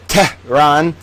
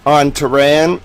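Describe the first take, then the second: First: Tehran split into "TEH... rahn"; pointed, separated "TEH, rahn"; mock correction. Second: Said in the usual way. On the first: Shown as a demonstration. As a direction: correct to an over-careful "Tehran" in two pieces. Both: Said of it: "Uh, sorry".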